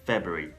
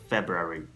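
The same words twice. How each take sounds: First: February is said in a shortened, reduced form. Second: February is said in full, all sounds clear. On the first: "many people say February" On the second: "instead of saying February"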